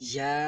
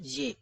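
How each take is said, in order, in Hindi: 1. अक्षर के नाम के अंत में 'ah' स्वर है। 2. अक्षर के नाम के अंत में 'ay' स्वर है। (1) "इसको पढ़ेंगे या" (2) "लोग क्या पढ़ते हैं"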